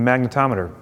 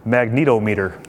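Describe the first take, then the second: First: It is said as magne-tometer, the usual way. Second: It is said as magneto plus meter. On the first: The speaker calls it right. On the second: The speaker calls it wrong.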